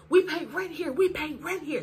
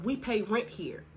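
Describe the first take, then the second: First: High-pitched indignant protest; retold screaming. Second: Said in the usual way. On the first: Sister protesting to Davian, high mock screaming. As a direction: imitate an upset woman yelling, pitched up. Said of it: "That's what she was screaming". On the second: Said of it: "that were telling him".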